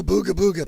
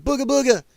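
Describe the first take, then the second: First: Said in the usual way. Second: Higher, mocking spooky-ghost voice; mocking imitation. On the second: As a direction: sneer it like a silly scare tactic. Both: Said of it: "People like".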